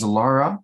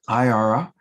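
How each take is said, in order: First: The name begins with an L sound. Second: The name begins with a vowel sound. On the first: The speaker calls it wrong. "I had said, pronounced it as Lara" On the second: The speaker calls it right. "I learned it is Iara"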